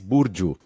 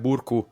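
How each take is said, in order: First: The middle consonant is a J sound. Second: The middle consonant is a hard K sound. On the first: The speaker calls it right. "she was telling me it's Burju" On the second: The speaker calls it wrong. "I was calling her Burku"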